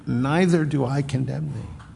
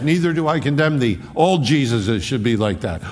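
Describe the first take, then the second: First: Gentle Savior. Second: Flippant mock quote. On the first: Acted. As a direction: offer Neither do I condemn thee as real mercy. Savior's offer to listener. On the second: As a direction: rattle off Neither do I condemn thee like an easy excuse. Culture's preferred half, flippant.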